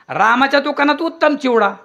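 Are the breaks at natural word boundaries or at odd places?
natural. Breaks fall between whole words, sounding natural. The shop has excellent chivda.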